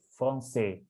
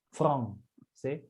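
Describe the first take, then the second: First: The stress is on the last syllable. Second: The stress is on the first syllable. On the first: The speaker calls it right. "tapi français" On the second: The speaker calls it wrong. "bukannya français"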